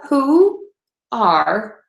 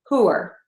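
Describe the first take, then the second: First: It is said as two full, separate words. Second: It is said as one contracted syllable.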